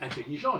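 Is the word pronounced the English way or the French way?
French. The word is pronounced the French way. Speakers would count the word as French. "je n'ai pas dit intelligent"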